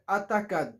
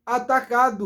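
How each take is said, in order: First: "atacado" with the final O swallowed; "atacado" ending on a bare D; foreigners' mispronunciation. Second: "atacado" with the final O released as "oo"; correct full ending. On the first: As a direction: cut "atacado" short to "atakad". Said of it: "não é atacado". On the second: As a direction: let the last sound of "atacado" out, "-du". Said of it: "A gente tem que soltar o som". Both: Shown as a demonstration.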